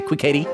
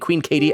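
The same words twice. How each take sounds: First: The name is said quickly with sounds slurred together. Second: The name is said clearly, each sound distinct. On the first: "I'm trying to say it so quickly that I slur it" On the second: "Instead of saying"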